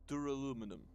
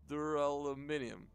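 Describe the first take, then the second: First: The ending is said without the extra 'ee' syllable. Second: The ending is said with the extra 'ee' syllable. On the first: The speaker calls it wrong. "That doesn't sound correct" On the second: The speaker calls it right. "there we go"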